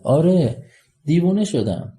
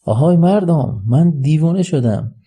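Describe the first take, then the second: First: Openly declaring it, voice lifted; raised voice. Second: High, slow proclamation to a crowd; raised, drawn-out public announcement; louder calling out. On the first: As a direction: call it out, pitched well up. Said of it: "با صدای بلند". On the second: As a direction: call out to everyone around, louder and higher. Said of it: "با صدای بلندتر". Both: Acted.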